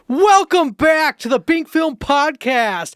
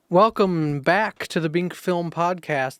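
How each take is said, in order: First: It is said in a put-on, imitating voice. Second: It is said in a natural, ordinary voice.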